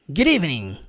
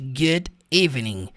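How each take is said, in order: First: The words are said quickly and run together. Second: The words are said slowly and kept apart. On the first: The speaker calls it right. "Em inglês da vida real" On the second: The speaker calls it wrong.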